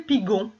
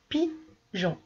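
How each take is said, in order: First: The g is hard, as in go. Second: The g is soft, like a j. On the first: The speaker calls it wrong. "après le G, il y a un O. Donc du coup, ça fait pigon" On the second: The speaker calls it right. "dans pigeon j'entends je"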